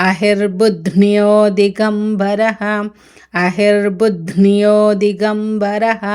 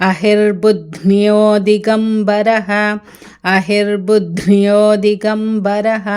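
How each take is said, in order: Both takes have the same delivery.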